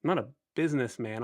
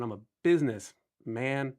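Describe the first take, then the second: First: Said in the usual way. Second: "business man" as two words, stress on "man". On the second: Retold or imitated. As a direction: split it into "business" and "man", lean on "man". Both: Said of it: "In the words of [name]".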